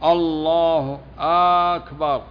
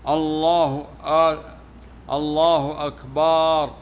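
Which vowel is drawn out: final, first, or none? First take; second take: first; final. First: The opening vowel is drawn out. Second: The vowel before the final r is drawn out. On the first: "ومثل ما يغير المعنى مثل مد الهمزة" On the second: "يقولون إن أكبر جمع كبر وهو الطبل"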